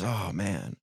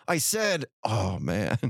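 First: Sighing. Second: Mock insistent, dropping into a low sigh; pointed repeated sigh. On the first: Acted. Wife at the computer, sighing to herself. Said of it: "she sighs and goes". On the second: Wife imagined repeating her sigh for attention, pointedly. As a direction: announce it, then groan the sigh out low. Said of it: "not gonna wait a couple minutes and go".

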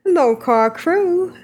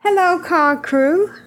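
First: Second go at mock Ren accent, slow; lightly done imitation of Ren's accent. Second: Mock Ren accent, a bit higher and slow; slow lilting imitation of Ren; Ren's accent. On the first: Host restarts Ren's email in his accent. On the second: Podcast host reading Ren's email in his accent. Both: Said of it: "That's my Ren accent".

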